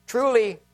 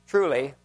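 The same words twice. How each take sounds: First: First truly lifted high; Truly rising high, then falling; emphatic truly. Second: Second truly dropped low and falling; truly brought down low; settled truly. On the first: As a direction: raise the first truly to call attention. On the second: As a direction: answer the first truly lower, settling it. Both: Acted. Repeated scripture opener.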